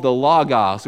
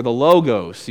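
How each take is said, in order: First: "logos" said LAW-gahs; short-o logos. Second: "logos" said LOH-gohs; long-o logos. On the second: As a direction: say "logos" with two long o sounds. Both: Shown as a demonstration. Gives two pronunciations of logos.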